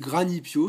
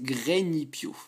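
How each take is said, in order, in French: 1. Le nom se dit sous une forme familière, d'enfance. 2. Le nom se dit sous sa forme officielle. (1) "moi je dis Granipio, c'est une, une habitude d'enfance" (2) "mais en fait c'est Granipio"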